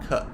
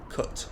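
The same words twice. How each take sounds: First: The final T is not pronounced. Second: The final T is clearly pronounced. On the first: "but Americans don't. I think Americans say something like cut" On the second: "whereas British people say cut"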